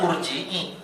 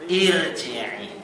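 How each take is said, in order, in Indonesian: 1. Kata ini dimulai dengan huruf vokal 'u'. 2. Kata ini dimulai dengan huruf vokal 'i'. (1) "bukan urji'i" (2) "Kalau ini kasrah berarti i"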